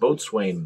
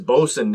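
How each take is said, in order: First: The word is said fully, just as spelled. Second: The word is said in a shortened, contracted form. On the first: The speaker calls it wrong. "even though it looks like Boatswain" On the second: The speaker calls it right. "This one is Boatswain"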